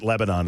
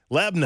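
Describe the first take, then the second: First: It is said in an outsider's way. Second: It is said in the local Tennessee way. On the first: This marks the speaker as a newcomer. The speaker calls it wrong. "They shamed me for six months when I first came to Tennessee because I pronounced it" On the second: This is how people from the area say it. The speaker calls it right. "That's the way they say it"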